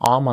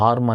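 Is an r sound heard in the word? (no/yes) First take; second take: no; yes. First: The word is said without an r sound. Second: The word is said with an audible r sound. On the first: The speaker calls it right. "ఆర్మ్ అనాలి" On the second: The speaker calls it wrong. "ఆర్మ్ అని use చేయకూడదు"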